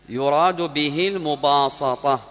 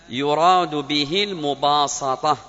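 Both takes have the same delivery.

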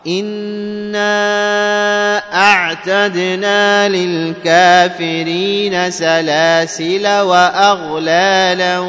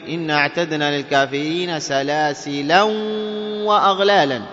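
First: Salasil ends with a short a, no n. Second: Salasil ends with an -an nunation sound. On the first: This follows Hafs's reading. "بحذف الألف" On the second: This follows another reciter's reading. "قرأها بالتنوين"

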